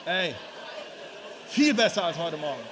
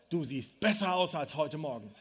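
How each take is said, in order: First: Called out louder to the crowd; loud teasing demo. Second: Low, amused aside with a laugh; chuckling suggestion. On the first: Preacher shows the congregation how to tease the neighbour, loud. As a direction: say it out to the room like you mean it. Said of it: "Sag das mal bitte deinen Nachbarn". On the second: Preacher gives the congregation a joking line, amused. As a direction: lines it up with a chuckle, half joking. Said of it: "Sag mal bitte deinem Nachbarn". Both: Shown as a demonstration.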